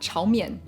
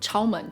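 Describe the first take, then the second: First: It is said with a Mandarin pronunciation. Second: It is said with a Toisanese pronunciation. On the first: "the Mandarin Chao Mian" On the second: "the Toisanese Chao Men"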